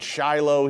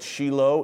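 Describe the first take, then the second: First: It is said the Western, English way. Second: It is said the Israeli, Hebrew way.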